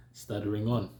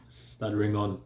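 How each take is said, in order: Both takes have the same delivery.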